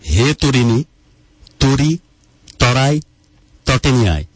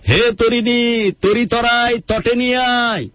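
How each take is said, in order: First: The phrase is spoken slowly and deliberately. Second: The phrase is spoken at a normal pace.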